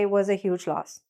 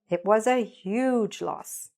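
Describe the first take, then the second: First: It is said flatly, without emotion. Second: It is said with emotion and lively intonation. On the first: The speaker calls it wrong. "there's no emotion there" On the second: The speaker calls it right. "put some emotion and intonation into it"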